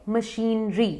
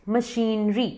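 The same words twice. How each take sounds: No difference in how they are said.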